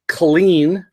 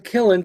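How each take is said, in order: First: The first syllable sounds like 'col'. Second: The first syllable sounds like 'kill'. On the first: The speaker calls it wrong. "it came out once as Colleen" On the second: The speaker calls it right. "Killen, K I L L E N"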